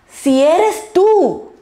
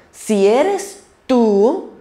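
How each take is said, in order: First: "Si eres tú" much higher, louder and slowly drawn out; emphatic mock doubt, high and slow. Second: Slow, drawn-out "si eres tú" with a hint of doubt; a touch of hesitant doubt; doubtful. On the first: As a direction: question him openly, dragging "tú". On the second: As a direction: stretch "si eres tú" as if unsure. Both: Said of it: "Ahí hubo un poquito de duda".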